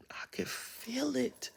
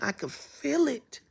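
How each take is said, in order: First: Slow hushed whisper. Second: Said in the usual way. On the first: Shown as a demonstration. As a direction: breathe it out in awe. Repeated, then whispered.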